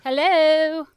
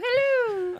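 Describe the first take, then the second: First: It is said in her own normal voice. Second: It is said in a Mrs. Doubtfire impression.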